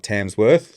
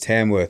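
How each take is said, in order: First: It is said with an s before 'worth'. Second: It is said with no s before 'worth'. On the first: The speaker calls it wrong. "It's not Tamsworth" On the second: The speaker calls it right. "which is Tamworth"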